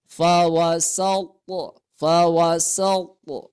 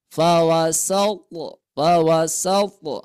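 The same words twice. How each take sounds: First: Fawasaltu with the t bounced toward o; qalqalah bounce. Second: Fawasaltu with a light bounce on t, not a full o; only lightly bounce the t in fawasaltu. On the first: Teacher demonstrating the bounce for students, slow and clear. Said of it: "to mempunyai sifat qalqalah". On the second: Teacher correcting an overdone o on the bounce, light. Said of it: "tapi bukan di o-kan oleh kita". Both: Shown as a demonstration.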